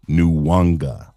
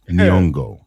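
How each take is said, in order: First: A w sound follows the first syllable. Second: The first syllable has no w sound. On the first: The speaker calls it wrong. "not Nuwanga" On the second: The speaker calls it right. "Her name is Nyong'o"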